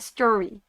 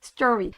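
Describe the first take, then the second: No difference in how they are said.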